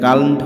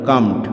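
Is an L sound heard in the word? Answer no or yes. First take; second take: yes; no. First: An L sound is heard before the M. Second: No L sound is heard before the M. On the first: The speaker calls it wrong. "এটা কাল্মড হবে না উচ্চারণ" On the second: The speaker calls it right. "এটা হবে কামড"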